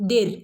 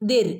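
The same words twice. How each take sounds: The two takes are said the same way.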